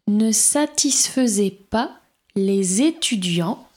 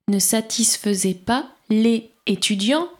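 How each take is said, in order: First: Les links to étudiants with a z sound. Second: Les is said without a linking z sound. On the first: "Attention, j'ai fait la liaison" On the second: "si je ne fais pas la liaison"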